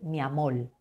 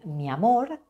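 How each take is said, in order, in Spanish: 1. El sonido final de la frase es una L. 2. El sonido final de la frase es una R. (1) "van a cambiar esa R final" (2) "en España vamos a decir mi amor"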